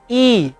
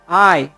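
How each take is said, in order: First: The letter is named the Indonesian way. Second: The letter is named the English way. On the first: "Orang Indonesia ini menyebutnya sebagai I" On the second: "orang Inggris menyebutnya sebagai I"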